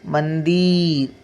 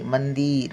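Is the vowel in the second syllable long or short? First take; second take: long; short. First: The second-syllable vowel is drawn out long. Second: The second-syllable vowel is said short and quick. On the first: The speaker calls it wrong. "असं होत नाही" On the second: The speaker calls it right. "पटकन उच्चार होतो"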